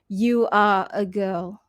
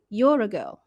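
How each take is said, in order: First: You are is said as two full words. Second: You are is contracted into one syllable. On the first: The speaker calls it wrong. "instead of saying" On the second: The speaker calls it right. "you'd say"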